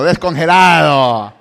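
It is said with a smiling tone.

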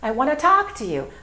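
Only the word 'talk' is stressed. The speaker calls it right. "So we're going to say it like this"

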